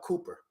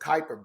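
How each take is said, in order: First: The first syllable sounds like 'coo'. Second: The first syllable sounds like 'kai'. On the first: "he keeps calling it the uh, Cooper" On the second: "But it's a Kuiper Belt, right?"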